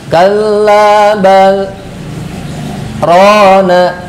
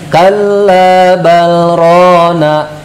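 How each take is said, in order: First: The pause after 'bal' is too long. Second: It runs on with no pause after 'bal'. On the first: "itu terlalu lama" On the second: "itu tidak ada jedanya"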